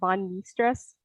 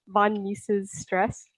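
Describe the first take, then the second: First: The name is clipped to sound like 'Mies'. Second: The name is said the usual way.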